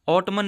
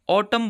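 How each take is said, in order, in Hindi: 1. अंतिम 'n' ध्वनि उच्चारित होती है। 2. अंतिम 'n' ध्वनि मौन है। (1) "ऑटमन नहीं बोला जाएगा" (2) "ऑटम बोला जाएगा"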